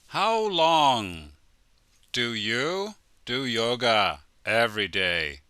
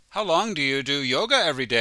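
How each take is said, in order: First: The question is said at a slower pace. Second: The question is said at a fast pace.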